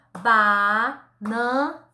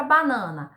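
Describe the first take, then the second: First: "Banana" very slowly as BA, NA, NA with gaps; sílaba por sílaba. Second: Said in the usual way. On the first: Shown as a demonstration. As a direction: chop "Banana" into three drawn-out syllables. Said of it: "separar a sílaba da palavra banana". ("Banana" bem devagar, em três sílabas separadas) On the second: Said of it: "separar a sílaba da palavra".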